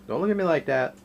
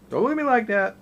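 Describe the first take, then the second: First: Said in the usual way. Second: Much higher and louder playful protest; pleading with the dog. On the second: Real, not acted. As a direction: give in to the begging dog, voice going way up. Dog begging for food.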